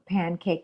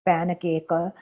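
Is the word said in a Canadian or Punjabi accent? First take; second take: Canadian; Punjabi. First: The word is said in a plain Canadian accent. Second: The word is said in a Punjabi accent.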